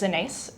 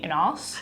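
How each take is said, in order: First: The last syllable rhymes with face. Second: The last syllable rhymes with ass. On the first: The speaker calls it right. "it rhymes with face" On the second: The speaker calls it wrong. "I will respond to pretty much anything, the exception being"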